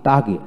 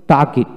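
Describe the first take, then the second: No difference in how they are said.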